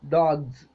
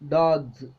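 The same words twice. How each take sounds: No difference in how they are said.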